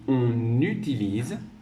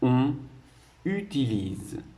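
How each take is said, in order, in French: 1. Les mots sont liés rapidement avec une liaison. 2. Les mots sont dits lentement et restent séparés. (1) "c'est pour lire plus rapidement et que, que ce soit plus joli" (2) "lorsque je vais dire doucement"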